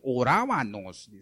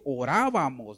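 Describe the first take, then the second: First: The consonant before the ending is 'n'. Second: The consonant before the ending is 'm'. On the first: The speaker calls it wrong. "dice orábanos" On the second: The speaker calls it right. "En lugar de decir orábamos"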